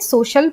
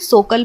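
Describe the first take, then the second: First: The middle consonant is an sh sound. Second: The middle consonant is a hard k sound. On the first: The speaker calls it right. "श की ध्वनि देते हुए सोशल पढ़ेंगे" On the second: The speaker calls it wrong. "ना ही हम इसे सोकल पढ़ेंगे"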